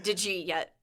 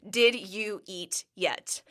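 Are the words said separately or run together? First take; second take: run together; separately. First: The words run together into one quick word. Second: Each word is said separately and clearly.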